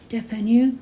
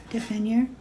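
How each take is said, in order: First: "depanneur" ending in a vowel, questioning; silent final R. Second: "Depanneur" with an English R at the end; final R sounded. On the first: Trying out a French word, R left silent. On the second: Trying out a French word, R wrongly sounded. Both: Shown as a demonstration. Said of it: "you don't say the R".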